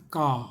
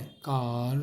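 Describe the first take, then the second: First: It has a British accent with silent R. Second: It has an American accent with R pronounced.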